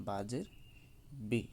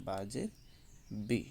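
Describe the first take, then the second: No difference in how they are said.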